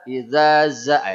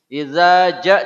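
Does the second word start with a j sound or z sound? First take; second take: z sound; j sound. First: The second word starts with a z sound. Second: The second word starts with a j sound. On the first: The speaker calls it wrong. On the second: The speaker calls it right.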